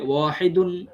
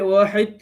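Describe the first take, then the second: First: The word ends with a final un sound. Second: The word ends on the d without a final un. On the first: The word is not at a pause. "যদি অক্ফ না করি" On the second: The word stands at a pause. "অক্ফ যদি করি তাহলে হবে ওয়াহিদ"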